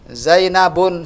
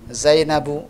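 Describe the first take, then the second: First: The name ends with an added n sound. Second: The name ends on a vowel, no n. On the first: The speaker calls it wrong. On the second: The speaker calls it right. "Yang benar Zainabu"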